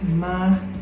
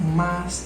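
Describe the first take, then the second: First: The word ends with an r sound. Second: The word ends with an s sound.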